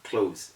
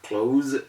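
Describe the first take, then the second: First: The final consonant is an s sound. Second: The final consonant is a z sound. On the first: The speaker calls it wrong. "instead of close" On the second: The speaker calls it right. "So we have close"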